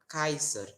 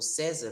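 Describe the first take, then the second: First: The first vowel sounds like ai. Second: The first vowel sounds like a plain e. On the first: The speaker calls it right. "o A E como Ai" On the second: The speaker calls it wrong. "ao invés de falar é, César"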